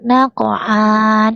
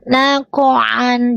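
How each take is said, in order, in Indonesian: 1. Vokalnya dipanjangkan. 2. Vokalnya tetap pendek. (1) "Jangan dibaca panjang"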